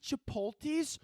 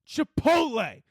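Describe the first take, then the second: First: The word ends with an added s sound. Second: The word ends without an added s sound. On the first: The speaker calls it wrong. "Not, are you going to get Chipotles?" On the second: The speaker calls it right. "It's Chipotle"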